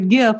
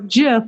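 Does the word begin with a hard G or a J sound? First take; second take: hard G; J sound. First: The word begins with a hard G sound. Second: The word begins with a J sound. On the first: "like the Christmas GIF" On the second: "which is the peanut butter"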